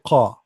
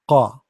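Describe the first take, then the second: First: The consonant is made deep in the throat. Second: The same.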